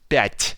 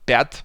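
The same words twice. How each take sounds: First: The final consonant is soft. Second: The final consonant is hard. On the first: The speaker calls it right. "but but пять" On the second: The speaker calls it wrong. "not пять"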